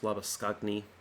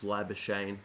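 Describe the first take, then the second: First: The name is pronounced with Afrikaans sounds. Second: The name is pronounced with Australian English sounds. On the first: "The Afrikaans pronunciation is" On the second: "the Australian pronunciation is"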